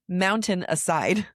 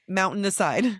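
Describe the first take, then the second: First: Each sound is articulated carefully and distinctly. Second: The words are run together without careful articulation.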